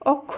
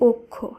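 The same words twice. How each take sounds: First: The first vowel is an open 'aw' sound. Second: The first vowel is a closed 'o' sound. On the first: The speaker calls it wrong. "তাই অক্ষ নয়" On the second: The speaker calls it right. "শব্দটি শুদ্ধ উচ্চারণ হবে অক্ষ"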